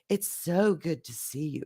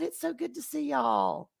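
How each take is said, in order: First: It is said in a deep, sultry voice. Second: It is said in a normal voice.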